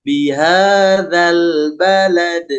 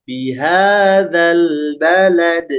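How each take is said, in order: Both takes have the same delivery.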